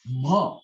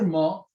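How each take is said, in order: First: "ma" voiced from the throat as a separate letter sound; vocal-sound "ma". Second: Said in the usual way. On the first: Shown as a demonstration. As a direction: say "ma" from the vocal cords. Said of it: "this is known as the vocal sound". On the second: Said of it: "the another sound".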